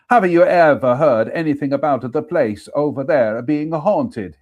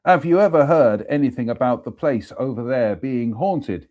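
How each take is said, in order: First: A second go with a higher, louder mock Italian accent; playful Italian accent, higher and louder. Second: Said in the usual way. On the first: Shown as a demonstration. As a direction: redo the question the way the Italian workman would. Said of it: "I'm gonna have to do that". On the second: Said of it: "Oh, I'm gonna have to do that".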